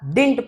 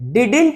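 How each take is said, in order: First: The word has one syllable, dint. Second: The word has two syllables, did-int. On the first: The speaker calls it right. "डिंट पढ़ते हैं" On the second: The speaker calls it wrong. "डिडिंट मत पढ़ना"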